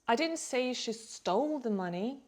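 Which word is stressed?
stole. The stress is on the word "stole". She took it some other way, perhaps borrowing. "maybe she borrowed it"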